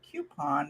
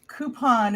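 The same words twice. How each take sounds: First: The word has a regional pronunciation. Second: The word has the standard pronunciation. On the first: "Regional areas say" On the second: "is the official pronunciation"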